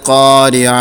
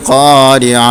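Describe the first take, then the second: Both takes have the same delivery.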